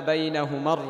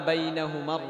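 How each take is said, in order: Both takes have the same delivery.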